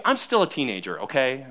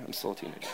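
First: Said in the usual way. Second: Breathy whispered joke under the breath; whispered aside. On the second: Real, not acted. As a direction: whisper it as a sly confession to the congregation. Joking aside about being teenager.

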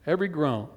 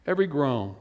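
The two takes are said the same way.

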